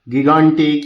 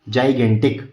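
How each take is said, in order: First: The word begins with a hard g sound. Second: The word begins with a j sound. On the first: The speaker calls it wrong. "इसको गिगांटिक या इस तरीके से पढ़ने से बचें" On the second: The speaker calls it right. "इसका proper pronunciation क्या होता है"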